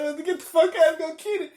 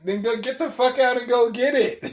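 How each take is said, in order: First: Very high, loud, breaking into laughter; laughing retold order. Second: High, loud order to get out; retold angry order. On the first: Driver retelling the order to get out, laughing and high-pitched. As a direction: repeat the order through laughter. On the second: Driver ordering passenger out of the car, high and loud. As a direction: re-enact throwing a passenger out, loudly.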